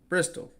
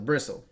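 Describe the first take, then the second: First: The T sound in the middle is pronounced. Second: The T sound in the middle is silent. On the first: The speaker calls it wrong. "There's a T in it" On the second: The speaker calls it right. "Don't pronounce the T. It's silent"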